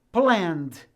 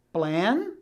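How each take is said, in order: First: "planned" as one syllable, crisp final -nd; only the D added. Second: Said in the usual way. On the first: Shown as a demonstration. Teacher contrasting plan with "planned", only the D added. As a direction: end "planned" straight on the D, no E. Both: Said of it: "eu apenas pronuncio a letra D".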